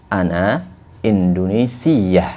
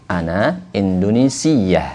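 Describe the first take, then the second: Both takes have the same delivery.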